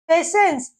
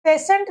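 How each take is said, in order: First: पेशेंस said with a clear s at the end, not t; correct pronunciation. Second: पेशेंट said with a hard t at the end; wrong pronunciation shown. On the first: (पेशेंस को अंत में 'स' के साथ साफ़ बोलें) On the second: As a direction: show the mistake, ending पेशेंट on t. (पेशेंट को अंत में 'ट' के साथ, गलत उच्चारण दिखाते हुए) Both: Shown as a demonstration. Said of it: "इसको हम पेशेंट नहीं पढ़ेंगे".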